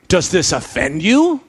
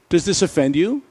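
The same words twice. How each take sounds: First: It is asked in a pushing, challenging tone. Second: It is asked as a plain, neutral question. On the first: The listeners are being pressed further. "I wonder if Jesus continued to push them" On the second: It is a simple request for information. "maybe Jesus simply asked a question"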